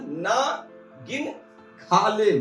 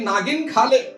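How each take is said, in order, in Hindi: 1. 'Na' और 'gin' एक हल्के विराम से अलग होते हैं। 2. 'Nagin' एक जुड़े हुए शब्द की तरह बोला जाता है।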